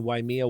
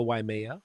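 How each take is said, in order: First: Waimea said as wai-MEE-uh, the middle vowel as ee; first Waimea variant. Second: Waimea said as wai-MAY-uh, the middle vowel as ay; second Waimea variant. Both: Shown as a demonstration. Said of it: "Waimea or Waimea".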